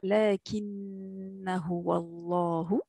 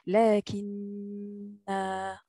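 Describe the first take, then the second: First: The final vowel of lakinna is short. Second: The final vowel of lakinna is held long. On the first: The recitation continues without stopping. "on ne prononce pas ce alif lorsqu'on continue la récitation" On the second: The reciter stops here to breathe. "vous allez faire une prolongation de deux temps"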